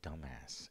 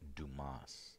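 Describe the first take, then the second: First: It is said like the word dumbass. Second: It is said without the dumbass sound. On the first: The speaker calls it wrong. "It's not dumbass" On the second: The speaker calls it right. "It's Dumas"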